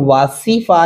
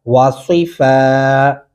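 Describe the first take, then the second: First: वासीफा with a thin, plain "see"; unrounded S in वासीफा, the error; wrong plain S. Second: वा सी फा with heavy "swee" for सी; slow वा सी फा with emphatic S; rounded Saad. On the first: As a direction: say सी in वासीफा as ordinary S, as a mistake. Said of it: "इसको वासीफा नहीं पढ़ेंगे". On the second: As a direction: round the lips on सी, hold फा. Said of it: "जो लफ्ज़ लिखा हुआ है हम उसी को अदा करेंगे". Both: Shown as a demonstration.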